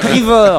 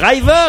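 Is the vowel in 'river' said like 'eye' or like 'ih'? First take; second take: ih; eye. First: The first vowel sounds like short 'ih'. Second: The first vowel sounds like 'eye'. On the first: The speaker calls it right. "vous me dites qu'il faut dire river" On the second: The speaker calls it wrong. "dès qu'il y a un i, il faut dire a ... Donc je dis river"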